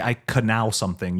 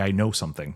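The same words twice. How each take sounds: First: "canal" for "know", the silent K voiced; K wrongly sounded. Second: Said in the usual way. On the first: Shown as a demonstration. Cohost illustrating silent letters, K pronounced. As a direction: sound the K as its own syllable in "canal". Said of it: "Like, you don't say". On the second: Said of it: "You say".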